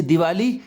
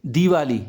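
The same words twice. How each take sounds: First: दिवाली with short di, rising; short-i misreading. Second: दिवाली with long dee, falling. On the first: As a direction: clip the first vowel of दिवाली. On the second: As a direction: stretch the first syllable of दिवाली to dee. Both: Shown as a demonstration. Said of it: "इसमें बड़ी की मात्रा आ जाएगी".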